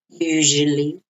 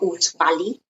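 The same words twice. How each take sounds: First: The middle consonant is said with a soft sound. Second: The middle consonant is said with a hard sound. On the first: The speaker calls it right. "It's like a, a nice soft sound" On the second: The speaker calls it wrong. "not usually"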